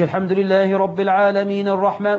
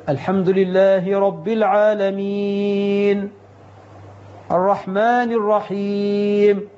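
First: Verses run together without pausing; one-breath recitation. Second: Slow recitation pausing at each verse end. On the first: Imam mocking one-breath recitation, verses run together. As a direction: rush it all in one breath. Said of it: "وياخدها في نفس واحد". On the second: Imam showing the right recitation, slow and paused. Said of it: "يقف عند كل آية يمد بها صوته". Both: Shown as a demonstration.

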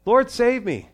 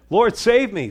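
First: Loud prayer cry. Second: High, loud plea to be saved; desperate cry for help. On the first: Shown as a demonstration. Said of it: "That's why your prayers don't have to be very long". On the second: Retold or imitated. Peter sinking in the storm, begging the Lord, loud desperate cry. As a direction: cry it out like a man sinking in the waves. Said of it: "And Peter said".

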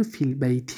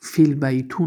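First: فیل بیتی with final -ti, not -tu; kasra ending. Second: فیل بیتو with final -tu, not -ti; u ending. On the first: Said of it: "کسره شد". (بیتی با کسره، صدای «ای» در آخر) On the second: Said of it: "فیل بیتو نشد". (بیتو با صدای «او» در آخر) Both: Shown as a demonstration.

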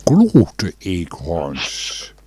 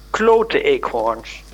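First: "Klote eekhoorns" echoed very slowly and lower. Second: "klote eekhoorns" said slowly with a pause before; hesitant swear. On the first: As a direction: drawl "Klote eekhoorns" back, savouring it. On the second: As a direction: drag out "klote eekhoorns" as a reluctant curse. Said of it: "dan mag ik het misschien zo zeggen". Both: Acted.

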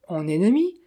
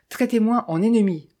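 First: Hurt echo, «ennemi» sweeping up into a question; mildly offended, rising question; pained exclamation. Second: Said in the usual way. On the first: A narrator's reading. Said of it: "S'exclama Dolce Piano d'un air peiné".

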